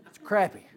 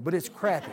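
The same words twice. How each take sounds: First: Crappie repeated as krap-ee, emphatic; crappie again. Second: Crappie with a short a, like krap-ee; say crappie right. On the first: Preacher insisting to the church, crappie as krap-ee. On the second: Preacher correcting Texans, crappie said as krap-ee. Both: Shown as a demonstration. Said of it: "Unless you're from Texas and say crappie".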